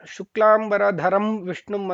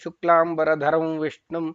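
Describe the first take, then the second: First: The nasal is a full m with closed lips. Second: The nasal is a nasalized vowel gliding into v. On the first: The verse's meter and syllable lengths are broken. The speaker calls it wrong. "ಅಂತ ಹೇಳಬಾರದು. ಅದೇ ತುಟಿ ತಾಕ್ಸಿ ಮಾ ಉಚ್ಚಾರಣೆ ಬರಬಾರದು" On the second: The verse's meter is kept intact. The speaker calls it right. "ಅನುನಾಸಿಕವಾಗಿ ವಕಾರವನ್ನ ಅಲ್ಲಿ ಹೇಳಬೇಕಾಗುತ್ತೆ"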